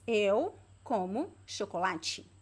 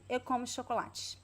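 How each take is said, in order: First: The unstressed vowels are pronounced carefully and fully. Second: The unstressed vowels are very weak, barely heard.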